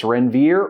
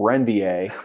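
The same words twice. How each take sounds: First: "Renvier" ending in a plain -veer; anglicized "Renvier", final r sounded; plain pronunciation. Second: "Renvier" French-style, ending in -vee-ay; fancy "Renvier" with an -ay ending; fancier pronunciation. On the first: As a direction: say "Renvier" as spelled in English, ren-VEER. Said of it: "get the phonetic pronunciation of it". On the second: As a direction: say "Renvier" as ren-vee-AY, silent r. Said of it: "it sounds fancier". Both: Shown as a demonstration.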